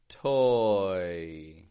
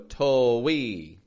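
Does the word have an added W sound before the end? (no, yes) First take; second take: no; yes. First: The vowel glides smoothly without an added W. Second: An extra W sound splits the vowel glide. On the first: The speaker calls it right. "we just make one smooth movement, relaxing the lips as we transition into the glide" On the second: The speaker calls it wrong. "They'll go to-we. We want to be careful that we don't add a W"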